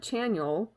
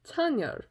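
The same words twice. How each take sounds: First: The name has an English-style pronunciation. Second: The name has a Korean-style pronunciation. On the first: The speaker calls it wrong. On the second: The speaker calls it right.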